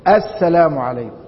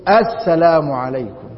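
First: The opening article sound is clearly pronounced. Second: The opening article sound is clearly pronounced.

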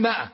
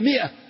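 First: The word begins with a long 'maa' sound. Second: The word begins with a short 'mi' sound. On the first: The speaker calls it wrong. "العامة يقولوا لها ماء، هي ما هي ماء" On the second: The speaker calls it right. "هي مئة"

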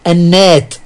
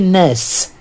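First: The word ends with a t sound. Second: The word ends with an s sound.

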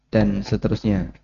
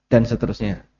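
The two takes are said the same way.

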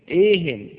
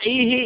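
First: The word ends with an added n sound. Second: The word ends without an added n sound. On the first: Keep talking about anything at all. "إيهن يعني زدني مطلقا" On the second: Keep talking about this topic only. "أما إيه يعني زدني من هذا الحديث ولا تزد من غيره"

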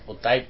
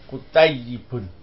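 First: The word is shortened, without the final ending. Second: The word is said in full with its ending. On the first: This is the casual conversational form. "karena ada bahasa percakapan biasanya disingkat kutayyib" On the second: This is the correct full form. "Yang betul tulisnya kutayyibun"

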